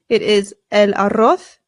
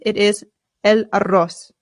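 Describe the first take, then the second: First: The final z sounds like English 'th'. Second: The final z sounds like English 's'. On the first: This is how it is said in Spain. "If you are using Spanish pronunciation" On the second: This is how it is said in Latin America. "If you're using Latin American pronunciation"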